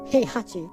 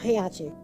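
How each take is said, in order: First: The second H sound is pronounced. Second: The second H sound is dropped. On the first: The speaker calls it right. "You actually pronounce it" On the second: The speaker calls it wrong. "just in one go, heiachi, because you don't pronounce H in the middle"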